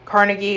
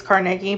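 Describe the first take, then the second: First: Carnegie said the common wrong way. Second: Carnegie said the correct way, a touch lower. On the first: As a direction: say Carnegie the way people usually get it wrong. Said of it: "Just like it's not Carnegie". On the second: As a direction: give Carnegie its proper pronunciation. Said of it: "it's not Carnegie, it's Carnegie". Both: Shown as a demonstration.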